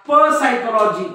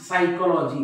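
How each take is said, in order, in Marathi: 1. p चा आवाज s च्या आधी म्हटला जातो. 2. हा शब्द s च्या आवाजाने सुरू होतो. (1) "तुम्ही असं म्हणत का प सायकोलॉजी नाही" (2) "बघा हा पी सायलेंट आहे"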